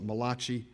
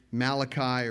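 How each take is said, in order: First: Malachi said as ma-LAH-kee with stress on the middle syllable; Italian-style pronunciation. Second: Said in the usual way. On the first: Shown as a demonstration. Pastor jokingly shows how Italians say Malachi, Italian-style pronunciation. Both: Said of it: "or as our Italian brethren call it".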